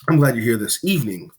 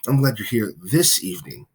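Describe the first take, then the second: First: The word evening carries the main stress. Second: The word this carries the main stress. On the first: This time of day is the best one. "This is the superior time of day for this" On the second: The person came on this particular day. "now you're you're happy that they are there on this particular day"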